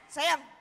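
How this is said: It is said in an angry tone.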